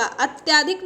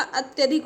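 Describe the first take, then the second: First: अत्याधिक with long middle vowel, at-yaa-dhik; wrong pronunciation. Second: अत्यधिक with short middle vowel, at-ya-dhik; correct pronunciation. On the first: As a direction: stretch the 'yaa' in अत्याधिक. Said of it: "नहीं होगा". (अत्याधिक में 'त्या' लंबा बोलें) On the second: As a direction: keep the 'ya' in अत्यधिक short. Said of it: "होगा". (अत्यधिक में 'त्य' छोटा बोलें) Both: Shown as a demonstration.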